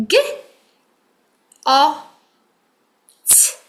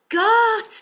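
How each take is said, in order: First: Segment G, O, T with pauses; sounding out words. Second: Got said high and loud as one word; blended word. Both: Shown as a demonstration. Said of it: "what am I saying?".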